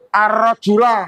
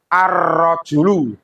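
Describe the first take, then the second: First: The word ends in an a vowel. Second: The word ends in a u vowel. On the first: The speaker calls it wrong. "Tidak boleh ar-rajula, salah" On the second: The speaker calls it right. "Harus ar-rajulu"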